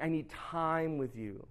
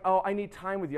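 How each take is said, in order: First: TIME slowed and drawn out, softer; insistent wife. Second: Said in the usual way. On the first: Retold or imitated. Wife repeats her request to husband, insistent. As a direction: stretch out TIME to make the point.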